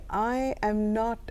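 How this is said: It is said in a hesitant, unsure way. The speaker is unsure about refusing. "the first one, you know that I'm hesitant"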